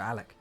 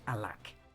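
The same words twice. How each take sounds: First: The name is said clipped, not fully pronounced. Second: The name is said fully, with every sound pronounced. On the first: "I just tend to uh, not pronounce it fully" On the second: "It's just much more of a strain to say it"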